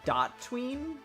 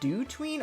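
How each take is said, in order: First: The first part is said as 'dot'. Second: The first part is said as plain 'do'. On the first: "or dot tween" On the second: "I don't know if it's pronounced do tween"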